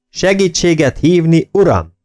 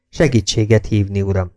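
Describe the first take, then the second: First: High, raised corrective bark; narrated shout. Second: Said in the usual way. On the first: A narrator's reading. Jakes makes Kemel add the title, shouted correction. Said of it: "kiáltotta Jakes".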